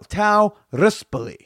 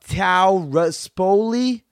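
First: It is said in an Italian-style way. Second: It is said in a clumsy American way.

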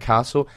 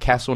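First: The word is said in an Adelaide accent. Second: The word is said in a Melbourne accent. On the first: "not a castle" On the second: "You'd be going to a castle"

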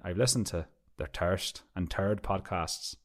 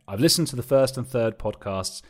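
First: It is said in an Irish accent. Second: It is said in a plain accent. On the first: "I'm not going to do the accent" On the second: "No, I'm not doing it. Not doing it"

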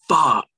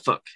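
First: It sounds really annoyed and forceful. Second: It sounds mild, like a small mishap.

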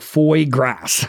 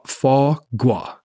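First: The word is said with an English pronunciation. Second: The word is said with a French pronunciation. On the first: The speaker calls it wrong. "Or else it'd be called like foie gras" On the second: The speaker calls it right. "The R is not pronounced"

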